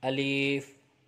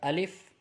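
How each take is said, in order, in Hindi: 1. दूसरा स्वर लंबा खींचा गया है। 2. दूसरा स्वर छोटा रखा गया है। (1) "बाज़ लोग इसको पढ़ते हैं अलीफ" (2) "ये पढ़ा जाएगा अलिफ"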